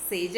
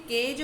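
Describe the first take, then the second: First: "सेज" with a soft S in place of the K, the wrong way. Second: "केज" starting on a crisp hard K; hard K sound. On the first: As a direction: say "सेज" with a hissing S to show the mistake. ("सेज" को स की आवाज़ से, गलत तरीके से) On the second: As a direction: open "केज" with a firm K. ("केज" को कठोर क से बोलें) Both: Shown as a demonstration. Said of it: "सेज नहीं बोलते हैं".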